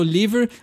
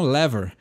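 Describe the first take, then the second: First: The first vowel is a closed sound. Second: The first vowel is an open sound. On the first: This is the speaker's usual way of saying it. "Eu falo liver" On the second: Some places say it this way. "lever é uma palavra aberta"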